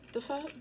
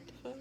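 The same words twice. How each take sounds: First: Higher rising the fuck; indignant question. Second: Very soft muttered the fuck; muttered repeat. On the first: Viewer reacting to the kissing request, indignant rise. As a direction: toss it out in disbelief. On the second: Viewer reacting to the finger sucking, soft mutter. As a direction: mutter it under your breath. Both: Real, not acted.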